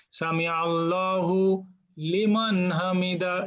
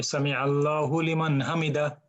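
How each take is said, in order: First: "সামি আল্লাহু লিমান হামিদা" slow, with every word overly separated; exaggerated, artificial. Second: "সামি আল্লাহু লিমান হামিদা" in one normal flowing run; just let it flow, no break. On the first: Teacher mocks the artificial recitation, slow and overdone. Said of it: "artificial pronunciation". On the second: Teacher gives the student the normal recitation, flowing. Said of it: "normal মানে flow". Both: Shown as a demonstration.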